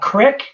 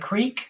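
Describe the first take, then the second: First: It is said with a Pittsburgh accent. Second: It is said with a standard accent.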